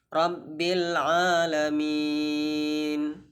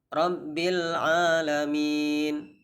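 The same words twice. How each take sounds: First: The vowel before the final n is held moderately. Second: The vowel before the final n is held briefly. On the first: "Boleh empat harokat" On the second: "panjangnya boleh dua harokat"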